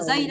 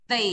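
First: It begins with a plain d sound. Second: It begins with a voiced th sound. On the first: The speaker calls it wrong. "Họ không đọc là dây đâu nhá" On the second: The speaker calls it right. "mà họ đọc là they"

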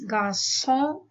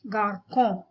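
First: The middle consonant sounds like an s. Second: The middle consonant sounds like a k. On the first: The speaker calls it right. "So garçon is garçon" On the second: The speaker calls it wrong. "and not garcon"

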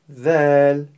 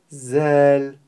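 First: The first sound is made between the teeth. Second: The first sound is made behind the teeth. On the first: The speaker calls it right. "поставить кончик языка между передних зубов" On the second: The speaker calls it wrong. "язык будет за зубами, то у нас получится другой звук"

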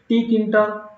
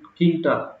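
First: The initial T sound is pronounced. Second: The initial T sound is silent. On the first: "One can pronounce it like Tkinter" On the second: "simply you can call it Tkinter"

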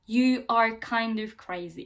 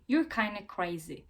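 First: Each word is said separately and in full. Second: The words are contracted and run together. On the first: "Normalde nasıl duymayı umuyoruz?" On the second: "Bakın burada hem you are, you're kinda crazy"

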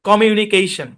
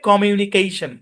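The two takes are said the same way.

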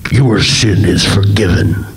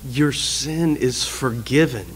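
First: It is said in a loud, booming voice. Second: It is said in a soft, gentle voice. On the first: It does not sound forgiving. The speaker calls it wrong. "If it were this loud, booming" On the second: It sounds forgiving. The speaker calls it right. "But no, instead it's"

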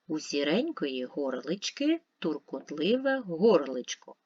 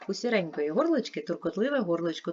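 First: It is read slowly. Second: It is read at the fastest pace. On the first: "Спочатку читаємо повільно" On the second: "Швидше"

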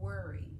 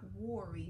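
First: The first vowel sounds like 'er' in 'her'. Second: The first vowel sounds like 'or' in 'for'. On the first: The speaker calls it right. "but worry. ... is making the O make the ER sound" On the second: The speaker calls it wrong. "Not worry"

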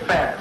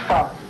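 First: The vowel is short, like in 'cat'. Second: The vowel is long and rounded, like 'ow'. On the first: The speaker calls it wrong. "Some would say fast" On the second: The speaker calls it right. "but it's Faust"

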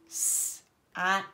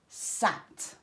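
First: The word is split with a gap between sounds. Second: The word is said smoothly with no gap.

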